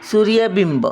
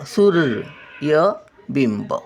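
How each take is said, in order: First: Said in the usual way. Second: सूर्यबिंब at half speed, syllable by syllable; slow syllable reading. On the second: Shown as a demonstration. Grandmother sounding out सूर्यबिंब for children, slowly. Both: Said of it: "word then slow repeat".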